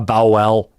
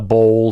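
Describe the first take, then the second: First: The word has an odd, unusual pronunciation. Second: The word has its usual pronunciation. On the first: The speaker calls it wrong. "he would come up with a odd pronunciation of a word that nobody else has" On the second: The speaker calls it right. "instead of calling it a bowl"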